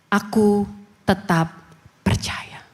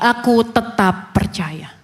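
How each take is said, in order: First: It is said at a normal volume. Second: It is said louder, with more force.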